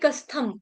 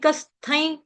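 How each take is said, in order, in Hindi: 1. शब्द का अंत साफ़ m ध्वनि से होता है। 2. शब्द का अंत नासिक y जैसी ध्वनि से होता है। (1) "अकेले इसी शब्द को लूंगी तो मैंने थ के ऊपर जो बिंदी अनुस्वार उसका उच्चारण मैंने म से किया" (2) "ज वर्ग का अनुनासिक जो होता है उसका उच्चारण य होता है"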